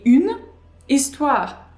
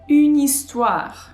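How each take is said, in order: First: The two words are said separately. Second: The two words run together as one. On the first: The speaker calls it wrong. "Notice how we do not say une histoire" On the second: The speaker calls it right. "We say une histoire. So it sounds like one word"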